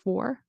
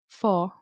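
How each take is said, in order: First: The final R sound is clearly pronounced. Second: The final R sound is left out. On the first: The speaker calls it right. "instead of" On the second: The speaker calls it wrong. "either not pronounce the R"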